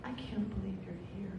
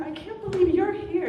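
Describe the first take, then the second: First: Soft, quiet and heartfelt; tender. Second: High, loud delighted greeting; excited. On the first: Nancy reaching her soulmate, soft and moved. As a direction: drop to a hushed, moved tone. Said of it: "And she gets to me". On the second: Nancy greeting friends, high and loud. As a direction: squeal it to the crowd. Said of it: "She's like". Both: Retold or imitated.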